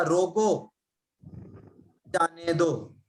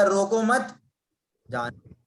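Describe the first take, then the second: First: "रोको," then a pause, then "जाने दो"; pause after रोको. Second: "रोको मत" run together, rising on "मत", then "जाने दो"; pause after मत. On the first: Teacher shows students the comma after "रोको", pausing there. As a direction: break right after "रोको" so it means stop, let go. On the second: Teacher shows students the comma moved after "मत". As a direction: keep "रोको मत" as one unit and pause only after "मत". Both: Shown as a demonstration. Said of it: "comma से लगने से अर्थ का अनर्थ".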